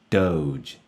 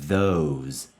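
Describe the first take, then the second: First: It starts with a d sound. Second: It starts with a voiced th sound. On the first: The speaker calls it wrong. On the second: The speaker calls it right.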